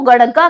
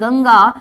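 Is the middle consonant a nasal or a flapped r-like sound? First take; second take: flapped; nasal. First: The middle sound is a flapped r-like consonant. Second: The middle sound is a smooth nasal 'ng'. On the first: The speaker calls it wrong. "ये गड़ग्गा नहीं है" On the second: The speaker calls it right. "ये क्या है, गंगा है आपकी"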